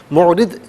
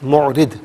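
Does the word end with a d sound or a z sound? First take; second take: d; d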